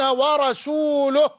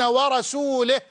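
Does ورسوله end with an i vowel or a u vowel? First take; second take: u vowel; i vowel. First: The word ends with a u vowel. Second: The word ends with an i vowel. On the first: God and His messenger are both free of the polytheists. The speaker calls it right. "أي الله ورسوله بريئان من المشركين" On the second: God is free of the polytheists and of His messenger. The speaker calls it wrong. "لا لا يا أعرابي، ما هكذا أنزلت"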